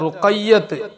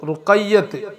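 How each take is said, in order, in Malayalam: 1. പേരിൽ ഇരട്ട 'y' ഉണ്ട്, 't' യിലാണ് അവസാനിക്കുന്നത്. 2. പേരിൽ ഇരട്ട 'y' ഉണ്ട്, 't' യിലാണ് അവസാനിക്കുന്നത്.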